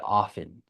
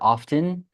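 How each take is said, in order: First: The T sound in the middle is silent. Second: The T sound in the middle is pronounced. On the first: "for gringos, we say often" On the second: "you said with a T?"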